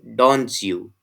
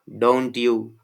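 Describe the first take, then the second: First: The t and y merge into ch. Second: The t and y sounds stay separate. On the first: "assimilated pronunciation of this phrase is" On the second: "actual pronunciation is"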